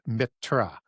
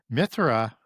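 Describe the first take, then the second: First: The middle consonant is a plain t. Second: The middle consonant is a th sound. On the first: "the old Sanskrit Indo-Aryan would be no sound to the H" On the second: "we pronounce that with a T H"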